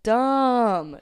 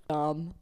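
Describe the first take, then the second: First: Dumb said loud and higher, falling hard; emphatic dumb. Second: Said in the usual way. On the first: Shown as a demonstration. Judging her own drunk idea, a loud falling Dumb. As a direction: slam down the word Dumb.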